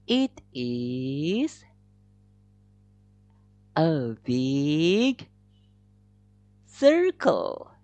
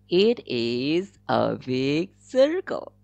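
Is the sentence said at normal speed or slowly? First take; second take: slowly; normal. First: The sentence is said slowly. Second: The sentence is said at a normal speed.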